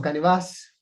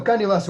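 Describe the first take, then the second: First: "canevas" stressed on its last syllable, the final A. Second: Said in the usual way. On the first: Shown as a demonstration. Instructor shows students the other pronunciation of the term, "canevas" stressed on the final A. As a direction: put the accent on the last A of "canevas". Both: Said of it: "con acento en la A".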